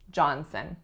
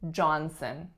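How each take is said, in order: First: The second syllable has a reduced schwa vowel. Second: The second syllable has a reduced schwa vowel.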